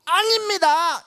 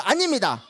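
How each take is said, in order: First: High, emphatic no; firm denial. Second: Said in the usual way. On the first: Shown as a demonstration. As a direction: declare it boldly. (힘있게 "아닙니다") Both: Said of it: "한번 해볼까요".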